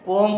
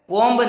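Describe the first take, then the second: First: The word ends without a b sound. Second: The word ends with a b sound. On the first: The speaker calls it right. "कोम पढ़ते हैं" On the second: The speaker calls it wrong. "कोम्ब नहीं पढ़ते हैं"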